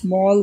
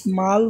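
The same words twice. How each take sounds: First: The vowel is a rounded 'aw' sound. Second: The vowel is an open 'ah' sound. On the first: The speaker calls it right. "স্মল বলতেছি, অ উচ্চারণ করতেছি" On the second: The speaker calls it wrong. "বলতেছি না ... আ উচ্চারণ করতেছি না"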